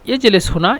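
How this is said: The last word is said with a 'u' vowel. This is the standard form. "শুদ্ধ ভাষা"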